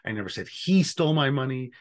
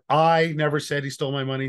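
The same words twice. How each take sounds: First: The stress is on "he". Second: The stress is on "I".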